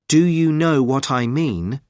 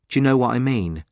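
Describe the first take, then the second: First: Each word is said fully and separately. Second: The words run together with reduced sounds.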